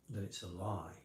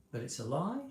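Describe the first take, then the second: First: "lie" falls flat and final; falling end. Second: "That it's a lie" with "lie" rising at the end; "lie" goes up, questioning. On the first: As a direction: drop "lie" down firmly. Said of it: "go down at the end if you're lying". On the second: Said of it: "going up at the end if you're lying". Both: Shown as a demonstration.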